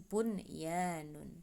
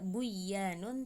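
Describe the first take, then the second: First: The n sound is pronounced clearly before y. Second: The n sound is merged into the y. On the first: The speaker calls it right. "tapi bunyanun" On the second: The speaker calls it wrong. "Tidak buyanun"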